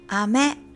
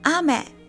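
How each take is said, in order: First: It has the pitch accent of the word candy. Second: It has the pitch accent of the word rain. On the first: The word means candy. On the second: The word means rain.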